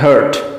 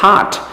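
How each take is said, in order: First: The vowel is a short, central 'uh' sound. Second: The vowel is a long, open 'ah' sound. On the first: The speaker calls it wrong. "हम अक्सर गलत बोलते हैं" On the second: The speaker calls it right. "आ sound पाया जाता है इसमें"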